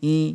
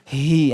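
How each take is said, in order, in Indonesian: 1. Bunyi h lemah dan hampir tidak terucap. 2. Bunyi h dilebih-lebihkan dengan hembusan napas yang kuat. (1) "Haknya ini enggak dijelaskan, cuma hanya seperti ini bacanya" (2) "Tambah berlebihan, ada yang saking semangatnya itu baca ha"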